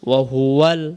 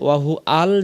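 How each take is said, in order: First: 'hu' flows into 'al' through a 'w' glide. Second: A glottal break separates 'hu' from 'al'. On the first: The speaker calls it right. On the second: The speaker calls it wrong.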